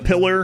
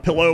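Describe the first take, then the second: First: The word ends in an 'er' sound. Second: The word ends in an 'oh' sound.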